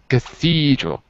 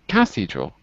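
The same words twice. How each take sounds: First: The stress is on the second syllable. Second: The stress is not on the second syllable. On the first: The speaker calls it right. "The second syllable, cathedral" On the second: The speaker calls it wrong. "not cathedral"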